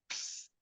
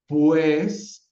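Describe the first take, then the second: First: The word is said with no vowel at all. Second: The word is said fully, with its vowels. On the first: This is a form used in everyday speech. "sin siquiera ninguna vocal" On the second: This is the ideal form in the system. "Fonológicamente tiene cuatro segmentos"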